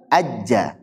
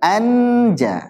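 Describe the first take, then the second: First: The n merges into a doubled j. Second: The n is pronounced clearly and fully. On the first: "bukan juga ajja" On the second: "bukan anja"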